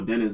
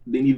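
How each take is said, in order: First: The name is said with English pronunciation. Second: The name is said with French pronunciation.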